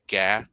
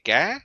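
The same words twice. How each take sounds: First: Sung, "Ga." in a level Vietnamese tone; sung, hold "Ga." steady and level; ga meaning sing. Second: "ga" jumped sharply higher in pitch; ga meaning fish. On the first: Sung, teaching friends a Vietnamese tone, "Ga." said level. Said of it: "That means sing". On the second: Teaching friends a Vietnamese tone, "ga" pitched high. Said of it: "that means fish". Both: Shown as a demonstration.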